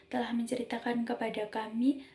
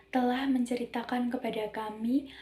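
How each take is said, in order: No difference in how they are said.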